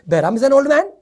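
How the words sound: The voice rises at the end like a question. It asks a question.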